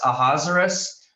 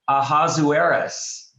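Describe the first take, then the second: First: "Ahasuerus" in four syllables, stress on HAZ; Ahasuerus like Lazarus. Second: "Ahasuerus" with a full oo-AIR before the ending; Ahasuerus as a-HAZ-oo-AIR-us. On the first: Teacher showing the easier way, Ahasuerus as a-HAZ-er-us. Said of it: "I think of Lazarus". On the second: Teacher showing the second way, Ahasuerus as a-HAZ-oo-AIR-us. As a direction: say "Ahasuerus" slowly in five syllables, a-HAZ-oo-AIR-us. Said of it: "one of two ways we pronounce it". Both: Shown as a demonstration.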